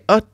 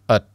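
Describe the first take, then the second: First: The vowel is full and clearly stressed. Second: The vowel is reduced and unstressed. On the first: The speaker calls it wrong. "you don't need to say at" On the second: The speaker calls it right. "just say at"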